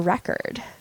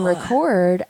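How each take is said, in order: First: The stress is on the first syllable. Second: The stress is on the second syllable.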